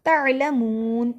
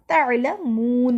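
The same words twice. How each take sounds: First: तअलमून slow, without the ain; drawn-out तअलमून with no ain catch; wrong reading. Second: तअलमून slow, the मून stretched long; long moon. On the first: Teacher demonstrating the error, slow recitation. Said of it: "तअलमून नहीं पढ़ा". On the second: Teacher modelling the long मून for students, slow chant. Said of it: "मून को लंबा किया". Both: Shown as a demonstration.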